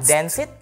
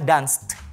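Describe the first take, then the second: First: The ending is an extra syllable. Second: The ending is a single consonant sound. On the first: The speaker calls it wrong. "Bukan dance it" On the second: The speaker calls it right. "akan dibaca dengan danced"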